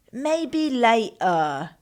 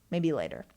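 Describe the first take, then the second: First: Hammed-up British accent, slow and loud; badly faked drawn-out British accent. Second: Said in the usual way. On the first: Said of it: "trying to sound like [name]".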